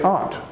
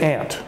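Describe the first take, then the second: First: It is said in an African American way. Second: It is said in the speaker's own American way. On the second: "So I say aunt"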